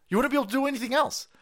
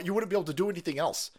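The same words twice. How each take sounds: First: Pitched way up, fast and incredulous; a squeaky sped-up echo of the line before; exasperated high repeat. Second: Said in the usual way. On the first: Acted. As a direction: fire it back higher and faster, disbelieving.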